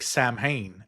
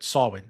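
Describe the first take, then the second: First: The word sounds like 'Sam Hain', spelled out. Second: The word does not sound like 'Sam Hain'. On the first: The speaker calls it wrong. "I always called it like Sam Hain" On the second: The speaker calls it right. "they were saying what you said"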